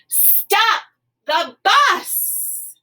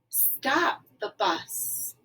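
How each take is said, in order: First: It is said loudly, with excitement. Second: It is said quietly, without force.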